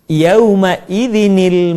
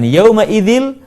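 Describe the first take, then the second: First: An extra ni syllable links to the l. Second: The n is dropped and joins straight to l. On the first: The speaker calls it right. "akan tetapi yauma idzinil masaq" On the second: The speaker calls it wrong. "dibaca bukan yauma idzil"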